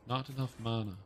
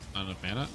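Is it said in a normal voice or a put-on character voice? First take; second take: character voice; normal voice. First: It is said in the sorceress's voice. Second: It is said in his normal voice.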